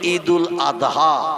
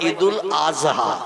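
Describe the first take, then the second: First: The consonant before 'ha' is a d sound. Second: The consonant before 'ha' is a z sound. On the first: The speaker calls it right. "আমরা বলি" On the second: The speaker calls it wrong. "মানে জয় অক্ষর উচ্চারণের মতো আওয়াজ করে বলে"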